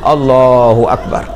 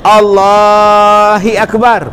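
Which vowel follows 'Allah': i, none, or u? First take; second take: u; i. First: A u vowel follows the h of Allah. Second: An i vowel follows the h of Allah. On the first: The speaker calls it right. "huruf ha pada ucapan Allah didammahkan" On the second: The speaker calls it wrong. "Allahi Akbar pun tak mau"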